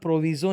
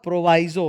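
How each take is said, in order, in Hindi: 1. बीच के अक्षर में छोटी 'vee' ध्वनि है। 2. बीच के अक्षर में लंबी 'vye' ध्वनि है। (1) "इसका उच्चारण प्रोविजो नहीं होता" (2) "प्रोवाइजो होता है"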